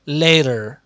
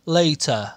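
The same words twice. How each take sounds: First: It is said with an American accent. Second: It is said with a British accent.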